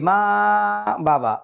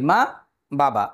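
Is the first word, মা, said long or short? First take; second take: long; short. First: মা is drawn out long, not kept short. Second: মা is short and বাবা is drawn out longer. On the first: The speaker calls it wrong. "এরকম বলি না" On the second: The speaker calls it right. "আমরা মাকে কম সময়ে উচ্চারণ করি, বাবাকে একটু বেশি সময়ে"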